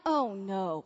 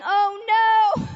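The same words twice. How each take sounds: First: Low, soft, sinking reaction; retold dread. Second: High, loud mock-horrified cry; retold horror. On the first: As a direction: let it sink quietly in mock dread. Retold dread as accusations are invited. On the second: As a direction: cry it out in exaggerated dread. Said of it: "the horror that came over me".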